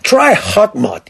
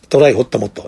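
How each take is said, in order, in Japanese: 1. 英語風の発音で言われている。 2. カタカナ読みで言われている。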